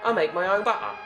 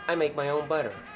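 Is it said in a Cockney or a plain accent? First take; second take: Cockney; plain. First: It is said in a Cockney accent. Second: It is said in a plain accent.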